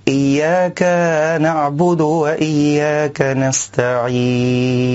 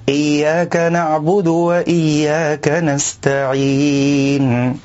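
First: "إياك" with its final a drawn out into iyaaka; the wrong "إياك" with an extra alif; stretched kaf vowel. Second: "إياك" with a short, clean fatha on the kaf; measured, correct "إياك". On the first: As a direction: overextend the fatha on the kaf of "إياك". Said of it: "يشبع الفتحة حتى يولد ألفا". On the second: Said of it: "والصواب أن يأتي بالكاف مفتوحة". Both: Shown as a demonstration.

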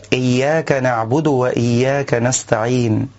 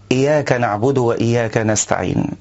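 First: "إياك" with a stressed, doubled ya; the correct "إياك" with shadda. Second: "إياك" with a single unstressed ya, no shadda; the wrong, undoubled "إياك"; light ya error. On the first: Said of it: "بتشديد الياء". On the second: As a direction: say "إياك" as iyak with no doubled ya. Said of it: "تخفيف الياء من كلمة إياك". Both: Shown as a demonstration.

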